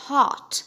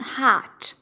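First: "hot" with a rounded O; British HOT. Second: "hot" with an open ah vowel; American HOT. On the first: Teacher repeating British "hot", rounded-O pronunciation. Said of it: "في البريتش أكسنت هيتقال". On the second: Teacher repeating American "hot", open-vowel pronunciation. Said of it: "لكن في الأمريكان". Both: Shown as a demonstration.

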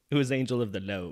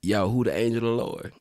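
First: Country accent, Lord as load. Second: Higher and louder, "who the angel of the Lord" run together with no syllables; his own slang accent. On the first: Host demonstrating the country accent for [name], "Lord" said "load". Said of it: "instead of Lord, it's like load". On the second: Friend answers host's request in his own slang accent, words run together. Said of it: "in my accent". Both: Shown as a demonstration.

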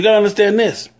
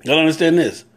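First: "gotta" hit high and fast, rushing to "understand this"; urgent quick emphasis. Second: "understand" leaned on, falling and settled; slower weighted repeat. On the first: Preacher telling his listeners to take note, quick and high. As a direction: fire off "you gotta understand this" fast and pitched up. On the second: Driving the point home to viewers, steady stress on "understand". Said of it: "Because you gotta understand this". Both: Real, not acted.

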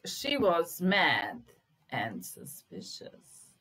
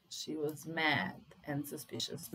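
First: Very slow, loud on "she was mad"; teacher reading a test sentence aloud; slow dictation. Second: Said in the usual way. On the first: Shown as a demonstration. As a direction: dictate it slowly to the class. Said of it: "slow dictation of test sentence". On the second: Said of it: "repeats sentence normally".

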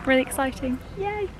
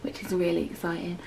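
First: Excited. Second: Hushed, excited whisper; whispering excitement. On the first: Arriving at Disneyland Paris. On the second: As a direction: whisper it, barely voiced. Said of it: "I'm whispering". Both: Real, not acted.

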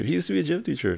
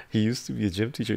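First: Mock voice. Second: Said in the usual way. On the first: Repeats line in put-on voice.

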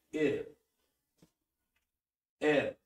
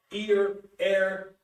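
First: "Ear" and "air" said plainly again; calm repeat. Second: "Ear" and "air" louder, gliding to schwa; schwa diphthongs. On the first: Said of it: "sonido central". (repetición tranquila) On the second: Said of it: "los de la schwa". ("Ear", "air" marcando la schwa) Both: Shown as a demonstration.

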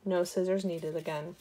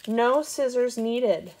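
First: Said in the usual way. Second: "No" stretched high and loud, slowly; stress on No. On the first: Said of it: "repeated plainly". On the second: Shown as a demonstration. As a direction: hit "No scissors needed" slowly and proudly. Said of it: "triumphant reveal".

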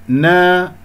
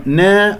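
First: نا with a long open aa; full open naa. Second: نا wrongly fronted toward ne; thin the aa of نا; thinned naa. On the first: Teacher models the correct sound, open alif. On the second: Teacher shows the mistake, thinned vowel. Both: Shown as a demonstration. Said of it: "نا خطأ".

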